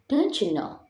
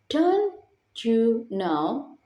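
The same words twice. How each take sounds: First: The words blend together with reduced sounds. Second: Each word is said separately and fully. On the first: "turn into" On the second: "For the fourth is"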